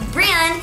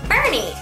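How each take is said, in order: First: The name sounds like Brynn. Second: The name sounds like Bernie. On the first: The speaker calls it right. "it actually is Brynn" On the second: The speaker calls it wrong. "I was saying Bernie"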